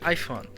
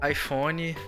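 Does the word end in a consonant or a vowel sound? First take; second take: consonant; vowel. First: It ends cleanly on the final consonant. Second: An extra vowel sound follows the final consonant. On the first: The speaker calls it right. "A gente fala som de N mesmo" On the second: The speaker calls it wrong. "a gente transforma ele num Y"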